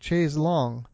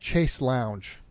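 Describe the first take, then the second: First: The second word has a French 'longue' sound. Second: The second word sounds like English 'lounge'. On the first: "just the much more French pronunciation" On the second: "what in English we often call a chaise lounge"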